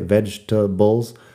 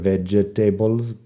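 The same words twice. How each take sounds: First: The word is said with three syllables. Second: The word is said with four syllables. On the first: The speaker calls it right. "la palabra vegetables tiene una sílaba menos de lo que parece" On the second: The speaker calls it wrong. "Parece que debería ser vegetables, pero no"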